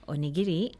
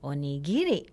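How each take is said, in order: First: The accent falls on the syllable ni. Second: The accent falls on the syllable gi. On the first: This is the standard Japanese way. "in standard Japanese, the accent is on the ni" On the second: This is the Kansai dialect way. "in the Kansai vein, the accent is on the gi"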